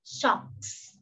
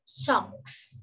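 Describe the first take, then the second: First: Socks whispered softly; whispered model word. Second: Socks whispered again, hissing s; whispered repeat. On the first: (thì thầm chữ socks) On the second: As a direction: breathe out Socks softly. (thì thầm lặp lại Socks) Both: Shown as a demonstration. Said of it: "Đó chính là".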